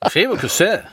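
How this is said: It is said in Danish, as written. "die sprechen das so, wie es geschrieben ist. Die Dänen"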